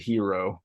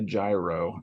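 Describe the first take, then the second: First: The word begins with an H sound. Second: The word begins without an H sound. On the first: This is how the speaker says the name. "I pronounce it hero" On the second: This is how some other people say the name. "some people say gyro"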